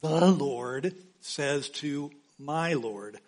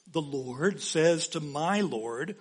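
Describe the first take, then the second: First: Each word set apart, very slow and steady; deliberate, measured repetition; slow, weighted. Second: Slow reading. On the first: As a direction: lean on "The" and draw out "Lord says to my Lord". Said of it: "This passage was explained by Jesus". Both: Shown as a demonstration.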